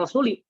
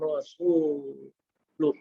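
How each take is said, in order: First: The word ends with an i vowel. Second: The word ends with a u vowel. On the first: The messenger would be one the disavowal is from. The speaker calls it wrong. "jangan Rasuli" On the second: The messenger also disavows them. The speaker calls it right. "tapi Rasulah atau Rasulu"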